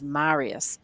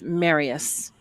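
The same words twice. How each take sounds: First: The name is said the Italian way. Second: The name is said the plain English way. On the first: The speaker calls it right. "like the uh, Italian godfather from some film" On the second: The speaker calls it wrong. "Oh, no, he's told me about this"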